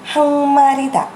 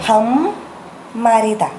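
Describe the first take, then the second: First: The first syllable ends nasally without closing the lips. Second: The first syllable ends with the lips closed. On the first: The speaker calls it right. "Tudo fica com o som bem nasal" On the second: The speaker calls it wrong. "Não fala ham, marida"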